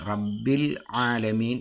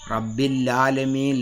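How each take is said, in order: First: The second word starts with a throat sound. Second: The L sound carries into the second word. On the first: The speaker calls it right. "റബ്ബിൽ എന്ന് ആ ലാം ഉച്ചരിച്ചിട്ട് പിന്നെ അയിന് ഉച്ചരിക്കണം" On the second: The speaker calls it wrong. "റബ്ബിൽ ലാലമീൻ ലാ ലാലമീൻ എന്ന രീതിയിലേക്ക്"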